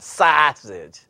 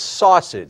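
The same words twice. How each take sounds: First: It is said in a Chicago accent. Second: It is said in a standard accent.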